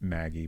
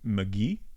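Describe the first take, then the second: First: The name is said with an English accent. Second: The name is said with a French accent. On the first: "since I don't have a French accent" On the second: "like if you're French, you'd say"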